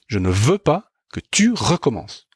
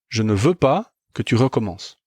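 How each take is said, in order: First: The consonants are hit hard and strongly stressed. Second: The consonants are said plainly, without extra force.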